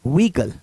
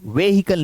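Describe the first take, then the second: First: व्हीकल said "vee-kal", two syllables; correct silent H. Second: व्हीकल said "ve-hi-kal" with sounded H; wrong pronunciation. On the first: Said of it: "हे का word नहीं निकलेगा". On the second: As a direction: give व्हीकल three syllables with an audible H. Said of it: "नहीं". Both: Shown as a demonstration.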